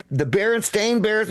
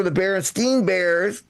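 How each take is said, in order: First: "Berenstain" ending like "stain"; contrasted vowel. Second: "Berenstein" ending like "steen"; contrasted vowel. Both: Shown as a demonstration. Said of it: "like the Berenstein Bears were the Bear".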